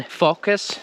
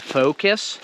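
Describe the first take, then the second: First: Focus as "FAW-kus"; short-O focus. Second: Focus as "FOH-kus"; English long-O focus. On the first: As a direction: say focus with an open "aw". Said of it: "do you hear the difference between". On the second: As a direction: stretch the O in focus to "oh". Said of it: "hear the difference between focus and focus". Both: Shown as a demonstration.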